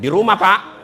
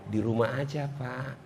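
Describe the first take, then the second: First: The voice is firm, short and businesslike. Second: The voice is soft, drawn-out and languid.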